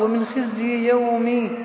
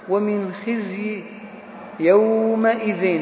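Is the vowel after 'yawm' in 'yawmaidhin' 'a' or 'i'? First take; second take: i; a. First: The vowel after yawm is i. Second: The vowel after yawm is a. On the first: The word takes a regular genitive case ending. "صارت يومي مضاف إليه معرب" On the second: The word is fixed in form, taking its shape from what follows. "اكتسب منه البناء على الفتح"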